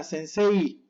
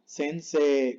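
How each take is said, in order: First: Sensei with a clear "ay-ee" ending; slow sensei, full EI glide; sounded final I. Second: Sensei ending on a pure long "eh"; slow sensei without the final glide; double E. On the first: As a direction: spell out the I closing sensei. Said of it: "no suena sensei". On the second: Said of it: "como doble E". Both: Shown as a demonstration.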